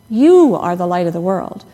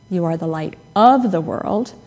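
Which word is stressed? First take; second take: You; of. First: The stress is on "you". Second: The stress is on "of".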